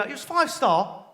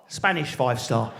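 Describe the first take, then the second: First: Said in the usual way. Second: "Spanish five star" dropped low and slow; knowing Spanish five star. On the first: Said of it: "you go". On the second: Retold or imitated. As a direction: undercut the boast with a low, slow aside.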